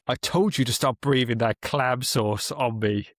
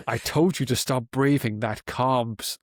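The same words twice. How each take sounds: First: "clam" said with a short a, like the shellfish; corrected word. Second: "calm" said as the word calm, not "clam"; misread word. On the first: Reading the quote again, getting clam right. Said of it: "Third time lucky". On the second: Reading the villain quote, misreading clam as calm. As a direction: read "calm" with a plain a and an l sound. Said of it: "oh, no, it's not calm, it's clam". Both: Shown as a demonstration.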